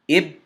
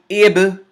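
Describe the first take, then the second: First: The final b closes and the sound stops. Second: The final b releases with a slight echo. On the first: The speaker calls it wrong. "Now I'm going to do it incorrectly" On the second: The speaker calls it right. "Correctly first"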